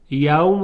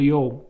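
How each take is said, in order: First: یوم said as "yawm"; standard diphthong. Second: یوم said as "yowm"; local dialect. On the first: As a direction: say یوم with an open aw. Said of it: "رو بتونه تلفظ کنه". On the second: Teacher shows the local dialect form, یوم as "yowm". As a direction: round the vowel of یوم to ow. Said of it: "با لهجهٔ محلی مثلاً میگفته". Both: Shown as a demonstration.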